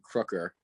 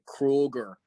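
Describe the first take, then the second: First: The middle consonant is a K sound. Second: The middle consonant is a G sound. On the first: The speaker calls it right. "the guys all called me Crooker" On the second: The speaker calls it wrong. "he would call me Kruger with like a K and a G in it"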